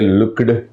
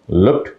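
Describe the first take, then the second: First: The ending is said as an extra syllable. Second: The ending is a plain t sound. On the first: The speaker calls it wrong. "they say looked and kicked. That's a very big mistake" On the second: The speaker calls it right. "that e should be cancelled"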